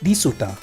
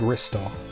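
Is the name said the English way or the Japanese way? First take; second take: Japanese; English. First: It is said as four Japanese-style syllables. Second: It is said as two English-style syllables. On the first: This is how the game's makers say it. "They always call it the same thing" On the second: This is the same name in English. "in British language would be called Ristar"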